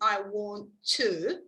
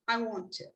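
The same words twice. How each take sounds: First: The t of 'to' is said separately. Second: The t sounds of 'want to' are linked. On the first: The speaker calls it wrong. "You don't say" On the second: The speaker calls it right. "but you say ... You don't repeat this sound again because you are linking it"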